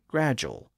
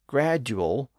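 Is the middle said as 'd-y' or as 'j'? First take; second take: j; d-y. First: The middle is said as a single J sound. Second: The middle is said as a D followed by a Y sound. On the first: "became gradual" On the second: "and gradual became"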